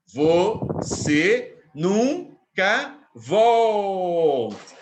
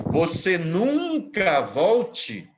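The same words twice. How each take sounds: First: "Você nunca volte" very slow, loud, split syllable by syllable; five long beats on "Você nunca volte", stretching "vol"; syllable scansion. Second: NUNCA drawn out long and loud; quoted with emphasis. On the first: Shown as a demonstration. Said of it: "a última tem cinco". ("Você nunca volte" escandido em cinco sílabas bem longas) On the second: Retold or imitated. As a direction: quote it slowly, stretching the word "nunca". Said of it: "Quando ela diz". (citação enfática, alongando "nunca")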